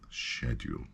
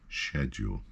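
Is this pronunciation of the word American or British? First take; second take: British; British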